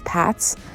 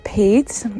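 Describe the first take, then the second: First: The name ends in a ts sound. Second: The name ends in a plain t sound. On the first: The speaker calls it wrong. "it's often mispronounced as Pats" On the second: The speaker calls it right. "my name is [name]"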